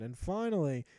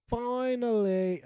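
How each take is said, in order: First: Said in the usual way. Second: Finally drawn out slowly, pitched higher and a bit louder; finally, long and exasperated; slow emphatic finally. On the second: Acted. Third, drawn-out repeated finally.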